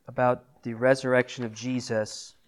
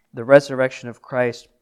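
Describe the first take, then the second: First: Said in the usual way. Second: "resurrection" pushed out loud and firm, louder than before; emphatic restatement. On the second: Real, not acted. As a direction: hit "resurrection of Christ" hard to drive the point home. Preacher restates the key point.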